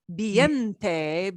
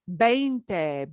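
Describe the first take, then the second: First: The first vowels sound like 'vee-en', then 'te'. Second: The first vowels sound like 'vein', then 'te'. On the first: It sounds like the word for wind. The speaker calls it wrong. "but if you pronounce it viente" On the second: It means twenty. The speaker calls it right. "So veinte"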